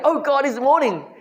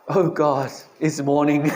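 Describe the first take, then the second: First: It is said in an excited, joyful tone. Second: It is said in a weary, groaning tone.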